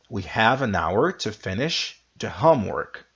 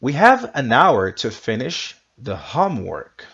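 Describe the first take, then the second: First: Said in the usual way. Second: Louder, clear teacher read; model sentence. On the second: Shown as a demonstration. Teacher modelling sentence for students to repeat. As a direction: lead the class through the sentence. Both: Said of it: "you repeat after me".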